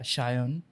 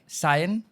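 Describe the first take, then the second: First: The name begins with an sh sound. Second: The name begins with a plain s sound. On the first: The speaker calls it right. "it's supposed to be pronounced as Shayon" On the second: The speaker calls it wrong. "when they greet me, they are like Sayan"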